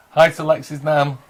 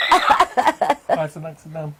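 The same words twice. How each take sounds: First: Said in the usual way. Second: Slow drawn-out copied greeting; Lexi's voice. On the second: Retold or imitated. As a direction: echo the greeting slowly, like a watching viewer. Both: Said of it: "Lexi's sat there going".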